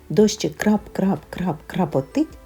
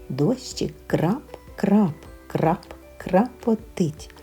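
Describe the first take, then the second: First: The phrase is spoken at a very fast pace. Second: The phrase is spoken at a faster pace. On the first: "Ще швидше" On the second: "Швидше"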